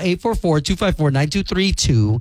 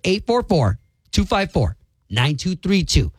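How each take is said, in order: First: The number is said at a faster pace. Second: The number is said at a slower pace.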